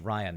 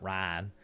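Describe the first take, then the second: First: The name is said in a Californian accent. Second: The name is said in a Texan accent. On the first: This is how the speaker says his own name. The speaker calls it right. "My name is Ryan" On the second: This is how people in Texas said the name. The speaker calls it wrong. "not Ryan"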